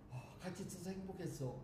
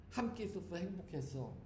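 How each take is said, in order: First: 같이 said softly, falling, hushed much softer; soft farewell words. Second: 함께 lightly stressed, soft and falling; tender last words. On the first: Practicing last words lying in the dark, softly. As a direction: murmur it as a gentle last goodbye. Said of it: "좀 이게 식상할 것 같아". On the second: Nun rehearsing dying words for loved ones, tenderly. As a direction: say it gently like a poetic goodbye. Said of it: "그걸 좀 더 시적으로 표현을 해야지". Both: Shown as a demonstration.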